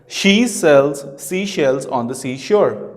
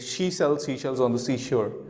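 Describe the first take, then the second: First: It is said slowly and carefully. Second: It is said fast and smoothly. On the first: "if I speak it slowly" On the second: "That's the fluency that I would be preferring"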